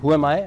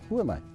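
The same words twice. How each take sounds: First: It is said in a proud, challenging tone. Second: It is said in a humble, inward tone.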